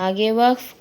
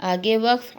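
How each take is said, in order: No difference in how they are said.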